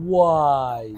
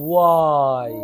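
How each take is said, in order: Both takes have the same delivery.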